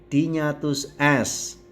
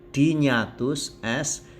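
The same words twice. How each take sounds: No difference in how they are said.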